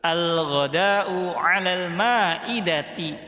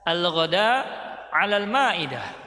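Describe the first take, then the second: First: Words keep their final vowel endings. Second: Final vowel endings are dropped and words stop short. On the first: "mau dibaca harokatnya" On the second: "Kalau mau dibaca disukunkan boleh"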